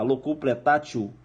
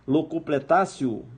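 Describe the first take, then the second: First: The consonant before -io is a t sound. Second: The consonant before -io is an s sound. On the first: This is how the word is written. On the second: This is how the word is pronounced.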